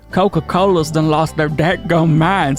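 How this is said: It is read smoothly in a country accent.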